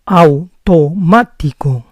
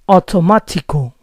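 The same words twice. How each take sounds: First: The T sounds are soft and au glides. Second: The T sounds are strong and the vowels merge. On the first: The speaker calls it right. "This is the correct pronunciation" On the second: The speaker calls it wrong. "the T's are too strong"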